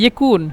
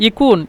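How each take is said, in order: No difference in how they are said.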